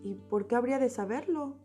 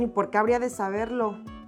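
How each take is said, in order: First: The question is asked in a calm, neutral tone. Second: The question is asked in an annoyed, defensive tone. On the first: A genuine question about why one would know. The speaker calls it right. "It is not the same saying" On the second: The speaker is offended and picking a fight. The speaker calls it wrong. "Than saying like this"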